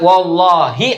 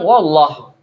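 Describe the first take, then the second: First: The word ends with a final 'ee' vowel. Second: The word ends without a final vowel. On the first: A real oath has been sworn. "itu baru sumpah" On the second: No oath has been sworn yet. "Saya nggak sebut bunyi akhirnya tuh"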